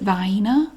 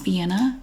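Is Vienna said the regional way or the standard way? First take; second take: regional; standard. First: The word has the local regional pronunciation. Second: The word has its standard pronunciation. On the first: This is how people in the local area say it. "the regional dialect around here, people, everybody pronounces it Vienna" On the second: This is the accepted pronunciation of the name. "I do know that that is Vienna"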